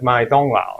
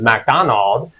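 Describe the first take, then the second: First: The name is said with Chinese-like sounds. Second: The name is said with English-like sounds. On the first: The speaker calls it right. "a little off, right? It's like my donglao" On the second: The speaker calls it wrong. "I always thought that McDonald's in Chinese was McDonald"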